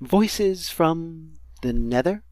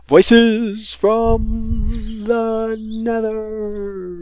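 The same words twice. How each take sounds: First: It is said in an ordinary speaking voice. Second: It is said in a special put-on voice. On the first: The speaker calls it wrong. "the normal way" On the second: The speaker calls it right. "the different way"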